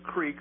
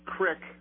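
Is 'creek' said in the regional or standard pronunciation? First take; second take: standard; regional. First: It uses the usual standard pronunciation. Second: It uses the local Northwest pronunciation. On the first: This is how most speakers say it. "instead of creek" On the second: This is how local speakers say it. "we say crick"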